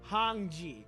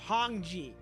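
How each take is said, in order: First: The first vowel is a rounded 'oh' sound. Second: The first vowel is a rounded 'oh' sound.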